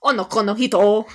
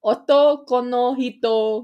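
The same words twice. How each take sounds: First: Onoko no hito in a playful anime voice, wrong first syllable. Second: Otoko no hito said slowly and loudly in an anime voice. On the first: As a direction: Onoko no hito said loudly with a rising tune. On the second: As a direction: Otoko no hito corrected, each syllable drawn out. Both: Pretend. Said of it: "I'll say 'em in my anime voice".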